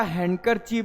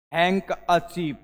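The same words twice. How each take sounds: First: हैंडकरचीफ as spelled, 'hand-kar-cheef'; D pronounced. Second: हैंक अचीव slowly, 'hank-a-cheef'; silent D. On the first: Teacher reading out the written word, हैंडकरचीफ with 'hand'. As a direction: keep the D in हैंडकरचीफ. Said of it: "डी को silent पूरा कर देंगे". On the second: Teacher showing the pronunciation, हैंक अचीव as slow 'hank-a-cheef'. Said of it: "ये आपका pronounce लिखा". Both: Shown as a demonstration.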